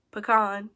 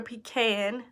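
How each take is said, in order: First: "pecan" said puh-KAHN, with a broad ah; puh-KAHN pronunciation. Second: "pecan" said pee-CAN, short a as in "cat"; pee-CAN pronunciation. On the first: Offering the other way to say it, "pecan" pronounced puh-KAHN. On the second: Listing favorite ice cream, "pecan" pronounced pee-CAN. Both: Shown as a demonstration. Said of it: "however you wanna say it".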